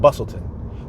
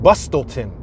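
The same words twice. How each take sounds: First: The T sound is left silent. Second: The T sound is pronounced. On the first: "you don't say the T. The T silent" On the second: "it's written Bustleton"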